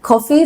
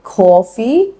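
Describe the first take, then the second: First: Said in the usual way. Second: Coffee said the New York way, as "caw-fee"; drawn-out New York "aw" in coffee; New York accent. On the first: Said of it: "Coffee sounds like coffee". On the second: Shown as a demonstration. Teacher showing how New Yorkers say coffee, New York accent. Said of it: "New York accent".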